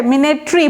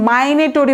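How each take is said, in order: First: মিনেটরি as "mi-ne-tree"; correct pronunciation. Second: মাইনেটরি as "my-ne-to-ree"; common mispronunciation. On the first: Shown as a demonstration. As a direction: say মিনেটরি with short "mi" first. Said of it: "মিনেটরি বলবেন". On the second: Retold or imitated. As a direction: quote the mistaken "my" opening in মাইনেটরি. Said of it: "এরকম মাইনেটরি বলে".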